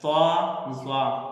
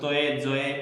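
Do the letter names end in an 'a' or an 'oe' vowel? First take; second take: a vowel; oe vowel. First: The second letter name ends in an open 'a'. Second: The letter names end in an 'oe' glide. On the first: This is the Arabic-style reading. The speaker calls it right. "इस तरह पढ़ेंगे इसको" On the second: This is the older Urdu-style reading. The speaker calls it wrong. "और इसको तोए जोए नहीं पढ़ना है"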